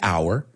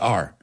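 First: The word sounds like hour, with two syllables. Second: The word sounds like are, with one syllable. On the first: "I don't say our" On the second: "At least Americans, I've heard it, we say our"

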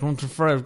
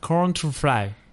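First: It is said at a faster pace. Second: It is said at a slower pace.

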